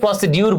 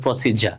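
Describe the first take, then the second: First: The middle is said with a d sound. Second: The middle is said with a j sound. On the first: The speaker calls it wrong. "এটাকে অনেকে প্রসিডিউর বলে, দেখো এটা ভুল pronunciation" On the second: The speaker calls it right. "এটা হবে প্রসিজার"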